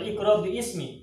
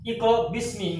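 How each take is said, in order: First: The alif is sounded, giving three syllables. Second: The alif is silent, giving two syllables. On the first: The speaker calls it wrong. "nggak boleh" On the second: The speaker calls it right. "Tetap Iqra bismi rabbika"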